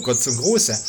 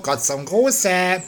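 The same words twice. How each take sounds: First: Said in the usual way. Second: Hoch und sehr langsam: "Gott zum Gruße"; "Gruße" gedehnt, in höherer Naturwesen-Stimme; Hutzlibub. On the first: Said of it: "Ja, lieber Hutzlibub". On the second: Acted. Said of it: "Hier ist Hutzlibub". (Hutzlibub grüßt feierlich, hoch und langsam)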